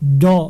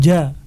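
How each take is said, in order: First: It is thick, with the tongue raised. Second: It is thin, with the tongue kept low. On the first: The speaker calls it wrong. "tidak dibaca do misalnya" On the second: The speaker calls it right. "Dibaca dengan ja"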